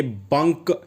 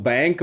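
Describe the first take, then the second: First: बंक said like 'bunk'; short 'uh' vowel in बंक; spelling pronunciation. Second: Said in the usual way. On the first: Shown as a demonstration. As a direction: read बंक as it is spelt. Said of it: "इसकी spelling B ए N के". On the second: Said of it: "हम लोग बैंक बोलते हैं".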